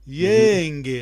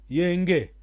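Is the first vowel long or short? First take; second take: long; short. First: The first vowel is long. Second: The first vowel is short. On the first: It means peace. The speaker calls it right. "Vista a importância da, da vogal longa" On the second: In Kikongo it comes out as a confusing, different word. The speaker calls it wrong. "ouve só o jornalista angolano"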